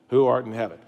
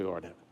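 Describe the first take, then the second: First: Said in the usual way. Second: Lower, much softer echo of "Who art in heaven"; soft, low repeat of "Who art in heaven" as the response; family echoing softly. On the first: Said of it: "And then the child would say". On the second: Shown as a demonstration. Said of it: "the rest of the family would say".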